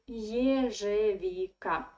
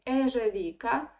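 First: The word begins with a 'yeh' sound. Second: The word begins with a plain 'eh' sound. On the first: The speaker calls it right. "No, it is" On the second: The speaker calls it wrong. "many foreigners who speak Russian, they try to say"

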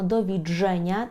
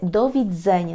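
First: The middle consonant is a dzh sound. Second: The middle consonant is a dz sound. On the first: The speaker calls it wrong. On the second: The speaker calls it right.

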